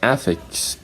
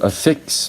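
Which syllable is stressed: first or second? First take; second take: first; second. First: The stress is on the first syllable. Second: The stress is on the second syllable. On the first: It is a noun. "an affix is a unit of a language" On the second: It is a verb. "to affix means to add"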